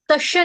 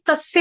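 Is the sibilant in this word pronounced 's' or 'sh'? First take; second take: sh; s. First: The middle consonant is a 'sh' sound. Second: The middle consonant is an 's' sound. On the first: The speaker calls it wrong. "तस्य नहीं आएगा माता जी" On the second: The speaker calls it right. "स सूरज वाला है यहाँ पर"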